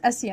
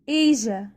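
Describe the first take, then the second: First: The middle consonant is a hissing 's' sound. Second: The middle consonant is a voiced 'zh' sound. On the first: The speaker calls it wrong. "وليست آسيا" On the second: The speaker calls it right. "ايجا ايجا"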